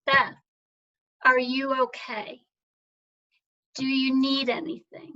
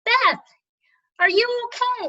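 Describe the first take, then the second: First: A friend's kind words, barely held together; moved to tears. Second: High, loud call across the water; worried hail from a motorboat; yelling from a boat. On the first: Real, not acted. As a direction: let the tears come through as you quote them. Friends checking in, tough year. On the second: Retold or imitated. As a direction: shout it out to someone on shore. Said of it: "he yells out".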